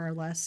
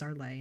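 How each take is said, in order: First: The name is given an English pronunciation. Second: The name is given a French pronunciation. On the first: "Some people say Arles or Arles in uh, English" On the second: "It is Arlay in French"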